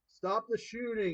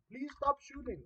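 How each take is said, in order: First: It is said in the speaker's plain accent. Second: It is said in an imitated Indian accent.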